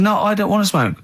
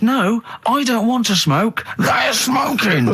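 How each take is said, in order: First: Higher-pitched protest, not yet shouted; retold protest. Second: High, slow, hammed-up shouty protest; exasperated retelling. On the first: Diner answering the waitress's question, insistent but unshouted. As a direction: recount an insistent refusal at normal volume. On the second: Diner repeating himself to the waitress, mock exasperated shout. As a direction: drag out each word, climbing into a mock shout. Retold escalated reply to waitress.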